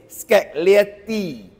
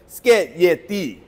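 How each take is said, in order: First: A hard G sound is heard in the middle. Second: No G sound is heard in the middle. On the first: The speaker calls it wrong. "Singaporeans say this word is Scaglietti. Wrong" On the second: The speaker calls it right. "The G is silent"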